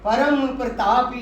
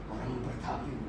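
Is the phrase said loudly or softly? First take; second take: loudly; softly. First: The phrase is spoken loudly and forcefully. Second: The phrase is spoken softly and gently. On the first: "अब मैं जोर से बोला" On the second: "धीरे बोला"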